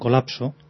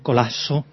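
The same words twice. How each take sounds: First: The p before s is fully pronounced. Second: The p before s becomes a breathy h. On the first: "en lugar de decir" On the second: "Pronunciar una ja, una aspiración"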